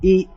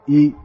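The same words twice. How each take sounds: First: The pitch is held high throughout. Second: The pitch is held low throughout. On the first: "that's high" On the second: "E is low"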